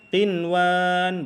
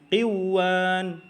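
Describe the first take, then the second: First: The n sound is pronounced clearly before w. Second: The n sound is merged away into the w. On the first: The speaker calls it right. "dibacanya tetap qinwan" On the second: The speaker calls it wrong. "kalau qiwan itu salah cara bacanya"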